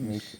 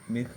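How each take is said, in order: First: The word ends in a sh sound. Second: The word ends in a soft h-like sound. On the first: "മിഹ് എന്നല്ല മിഷ് എന്നും പറയാം" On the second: "മിഹ് മിഹ് അല്ലെങ്കിൽ മിഷ്"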